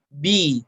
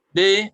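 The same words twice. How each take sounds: First: The i vowel is full and clearly formed. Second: The i vowel is weak and not fully formed. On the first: The speaker calls it right. "Jadi harus jelas, harus sempurna" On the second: The speaker calls it wrong. "Jadi kalau masih b, b, nah ini masih belum cukup"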